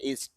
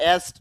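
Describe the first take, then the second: First: The vowel is pronounced like short 'i'. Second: The vowel is pronounced like 'e'. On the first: The speaker calls it right. "ইস্ট রস্বইকার দিয়ে হবে" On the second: The speaker calls it wrong. "আমরা তো এস্ট বলি একার দিয়ে না"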